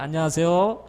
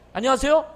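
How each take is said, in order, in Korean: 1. 끝이 살짝 올라가요. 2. 끝이 올라가지 않아요. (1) "끝을 살짝 올리세요" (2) "이게 아니라"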